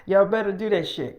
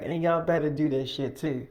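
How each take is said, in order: First: Y'all punched louder at the start; stress on Y'all. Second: Said in the usual way. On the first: Acted. Boss repeats the warning to the guests, hitting Y'all. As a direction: hit Y'all hard as a warning.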